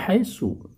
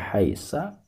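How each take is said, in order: First: The word ends with the vowel u. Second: The word ends with the vowel a. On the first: The speaker calls it right. "tetap dibaca haitsu" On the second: The speaker calls it wrong. "tidak boleh dibaca haisa"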